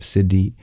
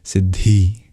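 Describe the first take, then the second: First: The dh is said without extra breath. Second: The dh is said with an extra breath. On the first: The speaker calls it wrong. "Instead of siddhi" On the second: The speaker calls it right. "we just use an extra extra breath, make it breathy there"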